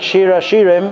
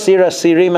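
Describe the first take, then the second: First: The words begin with a 'sh' sound. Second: The words begin with an 's' sound.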